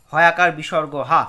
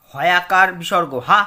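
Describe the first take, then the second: First: Said in the usual way. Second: Slow spelling. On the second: Shown as a demonstration.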